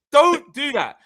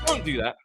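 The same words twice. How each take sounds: First: High, loud telling-off; forceful warning. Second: Said in the usual way. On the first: Retold or imitated. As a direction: snap it much higher and louder.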